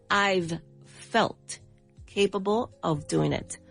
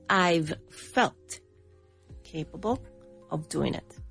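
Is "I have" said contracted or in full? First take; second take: contracted; contracted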